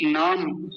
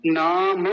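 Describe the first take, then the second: First: नाम as naam, ending on m; correct closed m. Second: नाम drawn out as naaa-ma; wrong added vowel. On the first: Teacher showing the right way because of the halant, closed-m pronunciation. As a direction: stop नाम with closed lips. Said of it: "ये सही है". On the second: Teacher showing the error, added-vowel mispronunciation. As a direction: release the m of नाम into an extra vowel. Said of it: "ये गलत है". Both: Shown as a demonstration.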